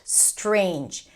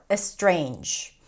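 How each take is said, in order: First: The word starts directly with the S sound. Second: An extra vowel sound comes before the S. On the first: The speaker calls it right. "just starting the word with that" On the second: The speaker calls it wrong. "you might add a vowel before"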